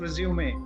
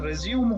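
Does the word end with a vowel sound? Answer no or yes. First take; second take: yes; no. First: The word ends with a sounded final vowel. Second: The word ends on a consonant, no final vowel. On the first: The speaker calls it wrong. "Not रिज्यूमे" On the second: The speaker calls it right. "इसलिए ये रिज्यूम होगा"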